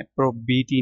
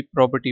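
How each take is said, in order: First: प्रोबीटी with "bee" in the middle; mistaken reading. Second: प्रॉपर्टी with a short "per" in the middle; correct reading. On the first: Teacher warning students off a misreading, प्रोबीटी with a long "bee". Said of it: "प्रोबीटी नहीं पढ़ना". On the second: Teacher showing students how to read it, प्रॉपर्टी with "per" in the middle. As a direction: read प्रॉपर्टी as prop-er-tee, no "bee" sound. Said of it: "इसमें भी प्रॉपर्टी पढ़ना है". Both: Shown as a demonstration.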